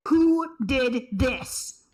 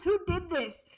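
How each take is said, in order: First: Slow, loud, furious demand; furious shout. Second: Said in the usual way. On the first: Real, not acted. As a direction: yell it out in real rage. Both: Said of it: "You went full vindictive there".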